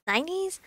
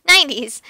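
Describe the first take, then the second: First: NINETIES lifted high and soft, rising; questioning. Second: Loud "Nineties", firmly falling; supply "Nineties" loudly from across a room; calling across room. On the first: Acted. Groping for the right decade. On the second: A narrator's reading. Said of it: "Miguel says from across the room".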